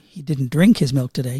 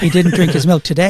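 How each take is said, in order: First: The stress falls on the word drink. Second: The stress falls on the word today. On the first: He took the milk in some other way. "He snorted it" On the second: He drank it on another day. "He drank it yesterday"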